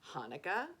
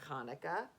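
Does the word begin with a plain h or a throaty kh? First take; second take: plain h; throaty kh. First: It begins with a plain h sound. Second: It begins with a throaty kh sound. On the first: "with an H" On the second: "with a C H"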